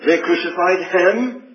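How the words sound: The stress is on the word him. The one killed was the sinless Son of God. "you put the emphasis on the last word"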